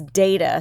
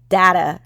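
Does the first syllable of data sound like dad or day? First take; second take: day; dad. First: The first vowel sounds like in day. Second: The first vowel sounds like in dad. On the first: "spell it D A Y T" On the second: "spell it D A D T"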